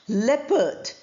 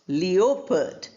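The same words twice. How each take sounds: First: The O sound is silent in the word. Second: The O sound is pronounced in the word. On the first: The speaker calls it right. "O sound is not there" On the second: The speaker calls it wrong. "not leopard"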